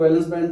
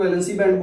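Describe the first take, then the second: First: "वैलेंस band" with the first word ending on a plain s; valence variant. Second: "वैलेंसी band" with an added -ee ending on the first word; valency variant. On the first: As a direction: say "वैलेंस", two syllables with no final -ee. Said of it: "कुछ लोग वैलेंस band बोलते हैं". ("वैलेंस" के अंत में सिर्फ़ "स" का उच्चारण) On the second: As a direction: say "वैलेंसी", three syllables ending in -see. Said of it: "कुछ लोग वैलेंसी बैंड बोलते हैं". ("वैलेंसी" के अंत में "सी" का उच्चारण) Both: Shown as a demonstration.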